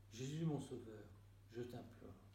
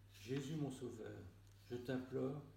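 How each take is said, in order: The two takes are said the same way.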